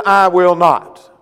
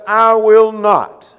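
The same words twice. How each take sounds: First: "I will not." slow, loud and firm, each word hit; emphatic refusal. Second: Slow, firm "I will not."; emphatic refusal. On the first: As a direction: plant your feet and refuse: "I will not.". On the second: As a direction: stress every word of "I will not.". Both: Acted. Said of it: "And he emphatically said".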